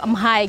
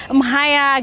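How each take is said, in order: First: "emhai" said flat and stiff, no tones, like a beginner; textbook Cantonese. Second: "Emhai ya" with a lifted Cantonese tone and native intonation. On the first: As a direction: say "emhai" plainly the way it's taught in Indonesian class. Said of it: "kalau belajar di Indonesia bisa bilang". ("emhai" diucapkan datar dan kaku seperti pelajar pemula) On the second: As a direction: sing the tones of "Emhai ya" like a Hong Konger. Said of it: "sudah pakai nada, sudah pakai voice-nya". ("Emhai ya" diucapkan dengan nada dan intonasi Kanton asli) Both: Shown as a demonstration.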